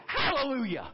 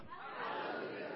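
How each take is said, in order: First: Hallelujah called out firmly and louder; spoken hallelujah. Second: Hallelujah breathed in a soft whisper. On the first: Pastor leading the church in praise, calling Hallelujah aloud. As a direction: proclaim Hallelujah out loud to the room. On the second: Pastor hushing the congregation, whispering Hallelujah. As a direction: drop Hallelujah to a hush. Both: Shown as a demonstration. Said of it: "let's just say this".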